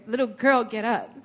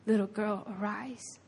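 First: Brisk order at normal volume; acted, matter-of-fact order; mock command. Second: Soft, hushed invitation; quietly acted tender call; tender, relational. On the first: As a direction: issue it as a plain command. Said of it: "he doesn't just command her". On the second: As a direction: say it gently, close beside her, fading away. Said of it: "he did it in such a relational way".

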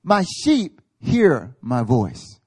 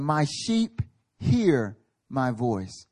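First: Louder, very slow, each word set down; confident declaration. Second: Very slow, each word weighed; absolute confidence. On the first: Retold or imitated. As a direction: declare it with calm certainty. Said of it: "But Jesus is like, Hey". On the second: Shown as a demonstration. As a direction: plant it like an unshakable truth. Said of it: "with absolute confidence".

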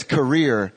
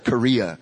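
First: "career" with an r ending, Southern-style; Southern "career" pronunciation. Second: Said in the usual way. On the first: Shown as a demonstration. Preacher showing grandmother's Southern way of saying it, "career" with final r. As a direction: end "career" on an r, not an open vowel. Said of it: "So she says career instead of Korea". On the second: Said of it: "career instead of Korea".

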